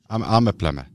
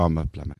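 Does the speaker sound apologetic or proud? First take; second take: proud; apologetic. First: It is said in a firm, proud tone. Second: It is said in a meek, apologetic tone. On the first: The job is important and valued. The speaker calls it right. "stand up, put their shoulders back and say" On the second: The job is nothing special. The speaker calls it wrong. "they shouldn't say, oh"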